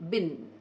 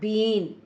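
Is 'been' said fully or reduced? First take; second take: reduced; full. First: The word is said short and reduced. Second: The word is said full and unreduced. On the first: The speaker calls it right. "you will say" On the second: The speaker calls it wrong. "not been"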